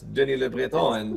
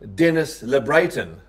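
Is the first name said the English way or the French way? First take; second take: French; English. First: The first name has a French-style pronunciation. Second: The first name sounds like English 'Dennis'. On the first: The speaker calls it right. "it's Denis Le Breton" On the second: The speaker calls it wrong. "somebody will call him Dennis Le Breton"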